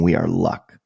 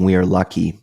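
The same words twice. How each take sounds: First: "We are luck." ending on "luck" with no -y, as if luck is a thing; luck as a noun. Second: Said in the usual way. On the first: Retold or imitated. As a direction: land on the noun "luck" and stop. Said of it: "then he started saying". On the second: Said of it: "he stopped saying".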